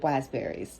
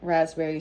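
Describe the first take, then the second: First: The word begins with a W sound instead. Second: The word begins with a clear R sound. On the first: "she would have said wasberries" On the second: "instead of saying like raspberries"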